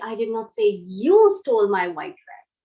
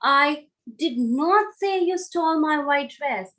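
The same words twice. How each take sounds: First: The stress falls on the word you. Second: The stress falls on did not. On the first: Someone else stole the dress. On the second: The speaker completely denies saying it. "If I focus on the word did not"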